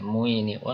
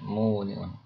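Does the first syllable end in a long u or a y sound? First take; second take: y sound; long u. First: The first syllable ends with a y sound. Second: The first syllable has a long u vowel. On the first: This is the original underlying form. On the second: This is the form actually used in speech. "Sehingga mereka mengucapkan muniun"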